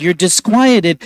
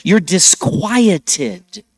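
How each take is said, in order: First: Said in the usual way. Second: "You're disquieted" stretched slowly, YOU'RE rising; drawn out. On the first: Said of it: "It's an English word". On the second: Shown as a demonstration. Priest dwells on the word for the congregation, slow and drawn out. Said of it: "We have that word in English".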